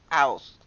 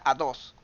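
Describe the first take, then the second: First: The middle consonant is left out entirely. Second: The middle consonant is a D sound. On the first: The child omits the sound. "me va a decir aos" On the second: The child substitutes another sound. "me diga a dos"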